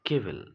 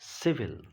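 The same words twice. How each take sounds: First: The word begins with a k sound. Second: The word begins with an s sound. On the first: The speaker calls it wrong. "it is not civil" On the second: The speaker calls it right. "the word is civil"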